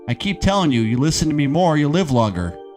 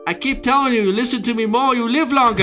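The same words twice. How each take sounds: First: It is said in the speaker's ordinary voice. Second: It is said in an imitated character voice. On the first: "I could say it like the character, but it would give it away" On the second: "let's hear you say it like him"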